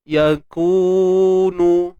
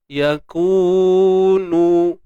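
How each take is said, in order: Both takes have the same delivery.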